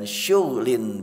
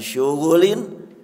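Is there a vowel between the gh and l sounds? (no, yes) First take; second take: no; yes. First: No vowel comes between the gh and l sounds. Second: A vowel comes between the gh and l sounds. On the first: A pleasant, calm and peaceful busyness. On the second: A busyness that never ends.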